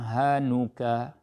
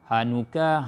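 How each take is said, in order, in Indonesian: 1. Vokal setelah n itu panjang. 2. Vokal setelah n itu pendek. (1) "dia cakap dengan tamam" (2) "Tidak ada wa"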